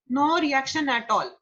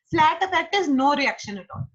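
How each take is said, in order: First: Slower, spelling out no reaction at all; slow emphatic repeat. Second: Lifted, louder, stressed on no reaction; emphatic definition. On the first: Teacher repeating a definition for students, slow and deliberate. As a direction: drive the point home slowly. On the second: Teacher stressing the definition to the class, emphatic. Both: Shown as a demonstration.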